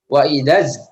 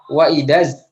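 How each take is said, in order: The two takes are said the same way.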